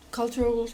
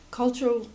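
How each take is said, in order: Both takes have the same delivery.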